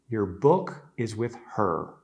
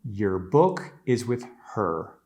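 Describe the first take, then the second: Both takes have the same delivery.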